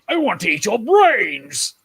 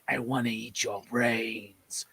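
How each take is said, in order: First: It is said in a goofy way. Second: It is said in a creepy way.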